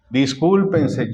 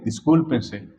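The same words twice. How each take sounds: First: Drawn-out firm "Discúlpense", each syllable slow; slow it down and press "Discúlpense" home; "Discúlpense" said slowly and firmly; slow emphatic order. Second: Said in the usual way. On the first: Shown as a demonstration. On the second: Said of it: "Discúlpense, ya no hay otra".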